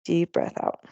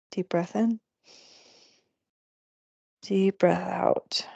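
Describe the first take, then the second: First: Said in the usual way. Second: Slow breathy whisper. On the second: Acted. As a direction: breathe the words out slowly in a whisper. Guiding breath, repeated cue.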